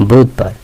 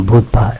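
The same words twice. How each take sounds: The two takes are said the same way.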